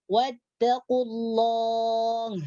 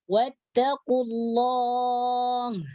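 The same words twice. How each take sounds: No difference in how they are said.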